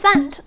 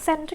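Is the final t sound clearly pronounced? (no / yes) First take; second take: yes; no. First: The final t is clearly pronounced. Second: The final t is not clearly pronounced. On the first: "เราต้องการจะเน้นว่าเราส่งไปแล้วจริงๆ เราก็เลยออกเสียงตัว t ด้วย" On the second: "ก็ได้"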